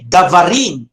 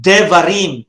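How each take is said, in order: First: "davarim" with a full a in the first syllable; wrong plural davarim. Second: "devarim" with a short schwa in the first syllable; reduced vowel devarim. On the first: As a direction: say "davarim", first vowel an open unreduced a. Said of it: "You will not say davarim". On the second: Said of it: "but you will say". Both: Shown as a demonstration.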